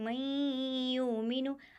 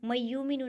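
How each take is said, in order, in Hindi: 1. इदगाम वाली आवाज़ नाक की गूंज के साथ रोकी जाती है। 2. इदगाम वाली आवाज़ बिना नाक की गूंज के कही जाती है। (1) "बल्कि मैं युमिनु, आवाज़ को नाक में घुमाएंगे" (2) "नहीं"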